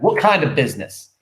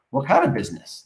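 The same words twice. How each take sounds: First: "What kind of business?" with KIND leaned on and a firmer edge; "What kind of business?" re-read with stress on "kind", a touch louder; corrected reading. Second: Said in the usual way. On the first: Shown as a demonstration. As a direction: press the word "kind" to make it a pointed demand. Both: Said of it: "that's the wrong way to say that".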